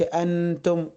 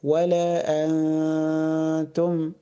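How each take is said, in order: First: Short, fully pronounced n in أنتم; clear nun. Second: Long nasal hum in أنتم before the ت; hidden nun. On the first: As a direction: say أنتم with the n distinct and unheld. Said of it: "تبقى ظاهرة كده". (نون أنتم ظاهرة بلا غنّة) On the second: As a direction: slowly hold the hidden n of أنتم. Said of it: "لا، أقول". (إخفاء نون أنتم بغنّة مطوّلة) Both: Shown as a demonstration.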